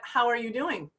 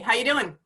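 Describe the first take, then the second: First: It is said as a sincere, caring question. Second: It is said as a casual throwaway greeting.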